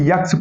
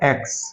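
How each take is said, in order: First: The letter name starts with a 'y' sound. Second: The letter name starts straight with the vowel. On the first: The speaker calls it wrong. "यहां पे यक्स पढ़ते हैं लोग" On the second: The speaker calls it right. "तो क्या है?"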